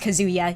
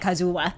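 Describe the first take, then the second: First: A 'y' sound comes before the final vowel. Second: A 'w' sound comes before the final vowel. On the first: The speaker calls it right. "his name is pronounced Kazuya" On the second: The speaker calls it wrong. "You forgot the Y in there"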